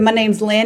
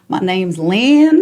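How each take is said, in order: First: It is said at a quick, normal pace. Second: It is said slowly, lower and drawn out. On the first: The speaker calls it wrong. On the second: The speaker calls it right.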